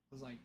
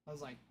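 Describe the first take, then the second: No difference in how they are said.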